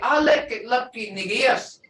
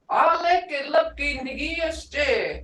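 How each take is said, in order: First: It is said in a firm, commanding tone. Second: It is said in a light, joking tone. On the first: We have to get going now. "that's more like a order" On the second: Just kidding around, no real urgency. "You can say that in a humorous way... just funny, be not serious"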